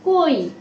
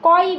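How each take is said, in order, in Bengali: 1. প্রথম স্বরধ্বনিটি একটি বন্ধ 'o' ধ্বনি। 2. প্রথম স্বরধ্বনিটি একটি খোলা 'aw' ধ্বনি। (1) "ও এর মতো উচ্চারণ হবে" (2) "কয় বলছি না"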